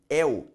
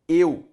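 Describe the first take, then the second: First: The diphthong starts with an open vowel. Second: The diphthong starts with a closed vowel.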